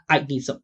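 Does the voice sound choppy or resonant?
choppy. The voice is choppy, without sustained vibration. The speaker calls it wrong. "Not I need some. I I I"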